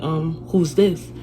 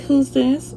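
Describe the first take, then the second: First: Said in the usual way. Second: High-pitched mimicked phone voice; imitated female caller. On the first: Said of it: "I'm like". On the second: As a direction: mimic the other woman in a raised voice. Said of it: "She's like".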